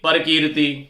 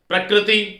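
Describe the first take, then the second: First: A vowel is inserted between p and r. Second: The opening pr is said as a tight cluster. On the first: The speaker calls it wrong. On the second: The speaker calls it right.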